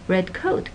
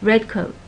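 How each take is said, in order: First: The stress is on coat. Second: The stress is on red. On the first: It is a literal description of a coat. "coat is more important than the color of it" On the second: It is a compound with its own meaning. "the stress goes on the first syllable"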